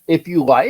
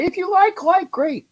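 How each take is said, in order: First: Said in the usual way. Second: If you like in a jumped-up high voice; high-pitched. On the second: Real, not acted. Repeats phrase, second time squeaky.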